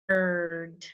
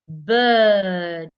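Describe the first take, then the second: First: American accent, with the r sound pronounced. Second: British accent, with the r sound dropped. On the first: "Americans we go er bird" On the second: "For you to articulate it in the R P, make sure you're in a relaxed position and you go uh"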